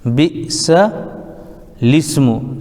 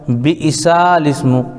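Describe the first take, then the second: First: It is said without the extra written vowel. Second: It is said with the extra written vowel. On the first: The speaker calls it right. "ये ऐसे पढ़ेंगे" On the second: The speaker calls it wrong. "असल में लिखा हुआ है"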